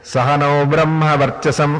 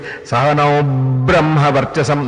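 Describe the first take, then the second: First: The b in Brahma is short and single. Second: The b in Brahma is held and doubled. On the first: The speaker calls it wrong. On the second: The speaker calls it right.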